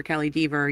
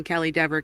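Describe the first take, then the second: First: Dever said as DEE-ver; long-e pronunciation. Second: Dever said as DEV-er; short-e pronunciation. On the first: Teasing viewers about the name, Dever as DEE-ver. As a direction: say Dever with a long ee, rhyming with fever. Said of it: "if right now in your head you are pronouncing". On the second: Teasing viewers about the name, Dever as DEV-er. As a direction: say Dever with a short e, rhyming with never. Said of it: "you are pronouncing Kelly Dever". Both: Shown as a demonstration.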